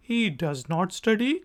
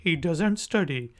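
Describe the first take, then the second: First: Said in the usual way. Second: Doesn't clipped; contracted doesn't. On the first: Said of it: "normal form". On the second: Shown as a demonstration. Teacher contrasting the two forms. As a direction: squeeze to doesn't. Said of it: "faster form".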